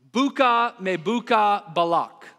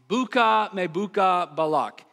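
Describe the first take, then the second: First: Slow, careful Hebrew pronunciation of Buka me buka balak; Hebrew reading voice. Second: Said in the usual way. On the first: Shown as a demonstration. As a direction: sound out Buka me buka balak slowly, like crackling pottery. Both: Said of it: "read it in my best Hebrew voice".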